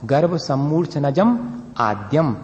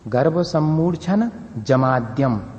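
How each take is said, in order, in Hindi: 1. विराम sammurchhanajam के बाद है, adyam से पहले। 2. विराम sammurchhana के बाद है, और jamadyam जुड़ता है। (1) "एक्चुअली ओरिजिनल ये है, तो यहां तक पढ़ना चाहिए" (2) "हमेशा ऐसे ही सीखा है पहले, लेकिन वो गलत है"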